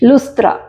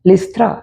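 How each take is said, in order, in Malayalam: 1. ആദ്യ സ്വരം oo ശബ്ദമാണ്. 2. ആദ്യ സ്വരം ee ശബ്ദമാണ്. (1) "ഹീബ്രുവിലുള്ള ഉ ശബ്ദം മലയാളത്തിൽ ഉ എന്ന് തന്നെ നിലനിർത്തിയിരിക്കുമ്പോൾ" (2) "ലിസ്ത്ര നമ്മൾ വായിക്കും"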